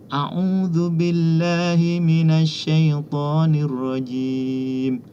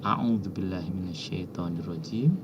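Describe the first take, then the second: First: The phrase is recited loudly. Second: The phrase is recited softly. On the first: The first reader in a turn-taking circle recites it. "yang pertama membaca dengan keras" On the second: A later reader in a turn-taking circle recites it. "pada yang kedua ini pelan sudah"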